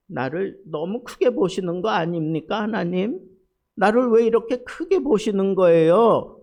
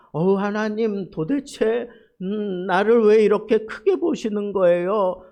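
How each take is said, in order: First: Loud, high complaining plea to God; lament. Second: Loud, high cry of overwhelmed wonder to God; awed exclamation. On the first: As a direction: lament as one pushed too hard. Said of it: "그러면서 한탄하는 거야, 한탄". (억울한 한탄) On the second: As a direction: exclaim it as if moved to tears by grace. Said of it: "너무 감격스러워서 감탄해서 하는 표현". (감격에 겨운 감탄) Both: Shown as a demonstration.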